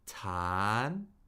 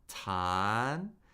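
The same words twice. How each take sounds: Both takes have the same delivery.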